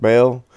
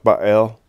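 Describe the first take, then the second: First: Baal said as "bail"; Baal as BAYL, long A; one-syllable pronunciation. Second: Baal said as "bah-AIL"; Baal as bah-AYL, stress on the second part; two-syllable pronunciation. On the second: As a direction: split Baal in two, "bah" then "ale". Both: Shown as a demonstration. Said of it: "I've heard it pronounced".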